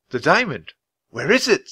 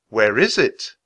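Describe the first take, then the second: First: Surprised, higher question; alarmed question. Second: Said in the usual way. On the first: Acted. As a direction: ask in alarm. Jack alarmed. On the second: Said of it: "Chapter ten".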